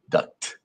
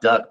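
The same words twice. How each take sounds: First: The final T sound is clearly pronounced. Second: The final T sound is left off. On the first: The speaker calls it right. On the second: The speaker calls it wrong.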